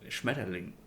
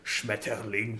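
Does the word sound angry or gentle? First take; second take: gentle; angry. First: The word is said softly, sounding gentle. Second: The word is said harshly, sounding angry. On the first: "but I can also say Schmetterling" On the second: "it sounds sounds angry"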